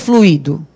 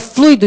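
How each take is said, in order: First: The u and i are separate syllables. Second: The u and i form one syllable. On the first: It is the verb form. The speaker calls it wrong. "e não o fluido" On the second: It names the substance. The speaker calls it right. "é o fluido de freio que você troca"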